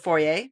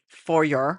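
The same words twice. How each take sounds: First: Foyer is said the non-American way. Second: Foyer is said the American way. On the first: "I walk in to the foyer" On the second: "or as Americans say"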